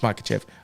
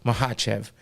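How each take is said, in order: First: The name is pronounced as English spelling suggests. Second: The name is pronounced in its native way. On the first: The speaker calls it wrong. "That's what we all say because that's how it looks" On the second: The speaker calls it right. "if you want to know how it's truly said"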